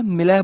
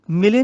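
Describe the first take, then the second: First: ਮਿਲੈ ending in open "ai". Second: ਮਿਲੇ ending in "ay"; wrong close ending. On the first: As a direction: say ਮਿਲੈ as "mi-lai". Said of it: "ਮਿਲੈ ਬੋਲਣਾ ਹੈ". (ਮਿਲੈ, ਅੰਤ ਵਿੱਚ ਦੁਲਾਵਾਂ) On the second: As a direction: say ਮਿਲੇ as "mi-lay". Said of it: "ਮਿਲੇ ਨਹੀਂ ਬੋਲਣਾ". (ਮਿਲੇ, ਅੰਤ ਵਿੱਚ ਲਾਂ) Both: Shown as a demonstration.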